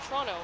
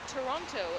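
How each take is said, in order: First: The T sounds in the word are dropped. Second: The T sounds in the word are fully pronounced. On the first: The speaker is a local. The speaker calls it right. "there's no T's" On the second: The speaker is not a local. The speaker calls it wrong. "if you say Toronto instead of"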